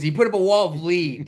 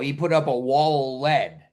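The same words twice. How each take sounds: First: Lead is said to rhyme with bead. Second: Lead is said to rhyme with bed. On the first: A machine misreads the word. The speaker calls it wrong. "But the A I will read it" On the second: The wall is made of the metal. The speaker calls it right. "Like the story will be"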